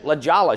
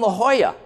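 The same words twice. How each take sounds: First: Jolla begins with a hard J sound. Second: Jolla begins with an H sound. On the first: The speaker calls it wrong. "I said, La Jolla" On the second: The speaker calls it right. "oh, you mean La Jolla"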